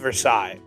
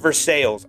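First: The name is said the standard, known way. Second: The name is said the local Pittsburgh way. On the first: This is how the famous French city is named. The speaker calls it right. "I'm telling you right now, it is Versailles" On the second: This is how locals name their neighborhood. The speaker calls it wrong. "They pronounce it Versailles"

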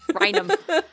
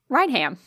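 First: The middle 'h' is silent, like 'Rainum'. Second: The middle 'h' is pronounced, like 'Ryan Ham'. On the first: The speaker calls it right. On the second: The speaker calls it wrong.

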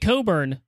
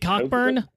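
First: The first syllable sounds like 'co' with no k. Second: The first syllable sounds like 'cock' with a k. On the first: The player becomes a first round pick. "Coburn is the way they were saying it all night" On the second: The player goes undrafted. "it's spelled Cockburn"

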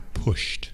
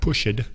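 First: The word is said as one syllable. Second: The word is said with two syllables. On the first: The speaker calls it right. "These are all of the examples of one-syllable ones" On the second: The speaker calls it wrong. "So it's not pushed"

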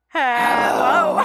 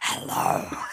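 First: It is said in a normal speaking voice. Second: It is said in a low, growling voice.

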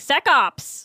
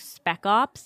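First: The first word has no p sound. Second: The first word has a p sound. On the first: The speaker calls it wrong. "I kept pronouncing this one word wrong" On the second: The speaker calls it right. "It was, like, spec ops"

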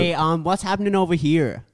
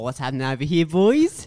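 First: It is said in an American accent. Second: It is said in an Australian-sounding accent.

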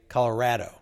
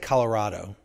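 First: It is said with the local pronunciation. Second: It is said with an outsider's pronunciation. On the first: This is how locals say it. "people here, it seems like, say Colorado" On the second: The speaker is from outside the region. "I say Colorado"

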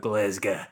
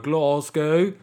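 First: It is said in a strong Glaswegian accent. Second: It is said in a non-Glaswegian accent. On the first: The speaker is truly from the city. "if you are proper from around here, you go" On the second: The speaker is not from the city. "If you're me, you go"

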